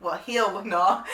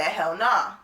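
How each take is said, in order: First: "hell" misread slowly as "heel", as autocorrected; reading the typo. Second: Said in the usual way. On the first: Retold or imitated. Woman reading out her autocorrected text, slow "heel" for "hell". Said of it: "I hate auto text when it does that".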